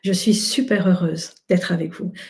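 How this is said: It sounds open and warm.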